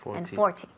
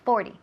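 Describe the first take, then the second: First: It is said with a strongly pronounced t. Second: It is said quickly with a light t. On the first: "con más énfasis en la T" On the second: "Muy rápidamente"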